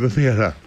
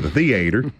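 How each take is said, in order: First: It is said with a northern local pronunciation. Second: It is said with a Kentucky pronunciation. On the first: "as we say it up here" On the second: "That's how you say it in Kentucky"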